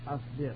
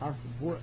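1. الصوت بعد الباء هو i. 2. الصوت بعد الباء هو u. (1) "والكسر" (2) "والضم"

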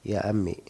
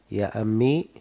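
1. Bunyi 'ya' terakhir dihilangkan, sehingga tersisa vokal pendek. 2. Bunyi 'ya' terakhir dibaca sebagai vokal panjang. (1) "bisa dihilangkan ya-nya" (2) "ya-nya di kelihatan"

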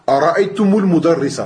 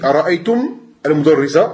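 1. Une voyelle 'u' relie le premier mot au suivant. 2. Le premier mot s'arrête, sans voyelle ajoutée après lui.

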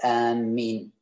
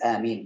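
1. الميم مشددة ويُطال نطقها. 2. الميم مفردة وقصيرة. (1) "ويحرم تشديد ميمها" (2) "بالتخفيف"

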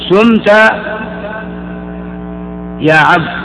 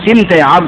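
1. في المقطع الأول الحركة u. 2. في المقطع الأول الحركة i. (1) "بالضم" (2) "بإخراج بالكسرة فقط"

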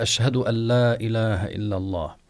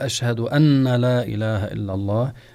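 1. تُدغم النون في صوت لام مشددة. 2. النون مشددة قبل اللام. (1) "أن لا بالإضغام، ألا كأنها لام مشددة" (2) "فالمعنى ... يفسد في ذلك"

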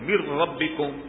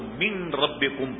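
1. ن دوہری ر کی آواز میں ضم ہو جاتا ہے۔ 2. ر سے پہلے ن صاف ادا کیا جاتا ہے۔ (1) "یہ رے پر ہم تجدید لگاتے ہیں" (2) "عرب والے اس کو من ربکم پڑھتے ہیں"

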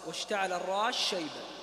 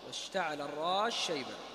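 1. تُدغم السين في الشين التي بعدها. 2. تُدغم السين في الشين التي بعدها.

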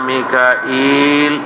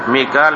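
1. تأتي همزة ثم ياء ممدودة بعد الألف. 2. يُنطق مقطعين بدون همزة. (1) "بالهمزه والياء بعدها" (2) "ميكال مثل الميعاد"

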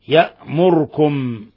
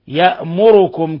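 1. لا توجد حركة بعد الراء. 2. الحركة بعد الراء تامة. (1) "بإسكان الراء" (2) "بالضمة الخالصة"

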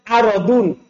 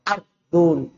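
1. Bunyi r diikuti vokal. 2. Bunyi r langsung diikuti konsonan. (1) "di harakati ra-nya" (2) "boleh juga disukun dalam darur syair"

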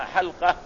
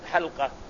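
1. تليها الصامتة التالية مباشرة. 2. تليها فتحة قصيرة. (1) "لابد بسكون اللام" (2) "لا تقول حلقة"

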